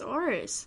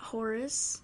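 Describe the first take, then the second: First: The name begins with a vowel, no H. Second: The name begins with an H sound. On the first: The speaker calls it right. "It's Oris" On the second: The speaker calls it wrong. "not Horace. ... You don't say the H"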